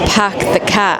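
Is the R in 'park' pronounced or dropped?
dropped. The R in park is dropped. "they would say pack the car. They don't really pronounce the R's"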